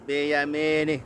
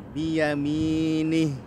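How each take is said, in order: First: The final h is cut off without airflow. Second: The final h flows out as breath. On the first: The speaker calls it wrong. "Jangan terbaca" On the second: The speaker calls it right. "alirkan suara huruf H karena dia punya sifat rokhawah"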